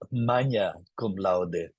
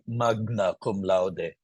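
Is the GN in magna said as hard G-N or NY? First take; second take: NY; hard G-N. First: The GN is said as an NY sound. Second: The GN is said as a hard G and N. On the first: The speaker has learned Latin pronunciation. The speaker calls it right. "G N is always enye" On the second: The speaker never learned Latin properly. The speaker calls it wrong. "Someone who didn't learn Latin will say"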